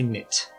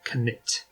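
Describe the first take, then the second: First: It is pronounced the English way. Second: It is pronounced the Swedish way. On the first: "I'm just going to say" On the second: "apparently supposed to be pronounced"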